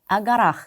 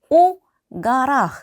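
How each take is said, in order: First: The preposition sounds like 'a', joined to noun. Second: The preposition sounds like 'o', said apart. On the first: The speaker calls it right. "우리 발음을 할 때는 아가라, 아가라 마치 한 단어인 것처럼" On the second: The speaker calls it wrong. "가라 일 것 같지만"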